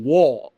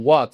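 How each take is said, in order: First: "what" as a Scottish "wo", final t dropped; mock Scottish accent. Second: Said in the usual way. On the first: Shown as a demonstration. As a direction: say "what" Scottish-style with a round open vowel and no t. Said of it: "sino que dicen". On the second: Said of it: "ellos no dicen".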